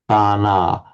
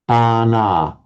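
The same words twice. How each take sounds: No difference in how they are said.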